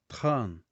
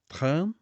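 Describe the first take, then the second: First: The word ends with a clear n sound. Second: The word ends without a clear n sound. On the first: The speaker calls it right. "eu vou dizer train, para que eu possa aproveitar a letra N" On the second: The speaker calls it wrong. "Ao invés de dizer train"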